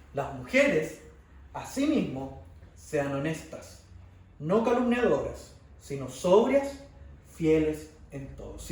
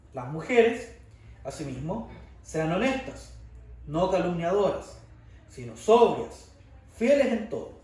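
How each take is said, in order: The two takes are said the same way.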